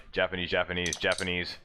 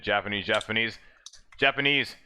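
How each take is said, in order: First: Low, subdued mimicry of commentary; Japanese commentator impression. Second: Imitated commentary creeping up in pitch; voice rising a little. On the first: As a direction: mimic commentary chatter, lower and quieter. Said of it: "You hear, like". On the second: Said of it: "the voice goes up a little bit".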